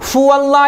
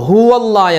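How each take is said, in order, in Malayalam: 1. ഈ വാക്ക് 'f' ശബ്ദത്തിലാണ് തുടങ്ങുന്നത്. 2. ഈ വാക്ക് 'h' ശബ്ദത്തിലാണ് തുടങ്ങുന്നത്. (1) "ഫുവല്ല എന്നല്ല" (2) "ഹുവല്ല എന്നാണ്"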